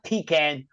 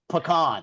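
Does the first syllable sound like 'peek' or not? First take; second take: peek; not peek. First: The first syllable sounds like 'peek'. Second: The first syllable does not sound like 'peek'. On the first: This is how people in the Northeast say it. The speaker calls it wrong. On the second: This is how people in Texas say it. The speaker calls it right.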